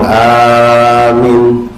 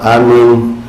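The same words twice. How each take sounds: First: The first vowel is long, the second short. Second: Both vowels are kept short. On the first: "dipanjang depan pendek belakang"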